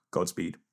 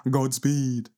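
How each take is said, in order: First: Said in the usual way. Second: Higher and louder, grand farewell; dramatic sign-off. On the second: Acted. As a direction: boom it out like a heroic blessing. Sign-off said twice.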